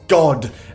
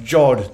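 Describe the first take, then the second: First: The word begins with a hard G sound. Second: The word begins with a J sound. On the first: The speaker calls it wrong. "not God" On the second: The speaker calls it right. "it's pronounced Jod"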